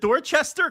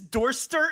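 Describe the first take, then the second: First: The middle 'ch' syllable is fully pronounced. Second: The middle 'ch' syllable is dropped. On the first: The speaker calls it right. "it got to be Dorchester" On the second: The speaker calls it wrong. "Is this Dorster instead of Dorchester?"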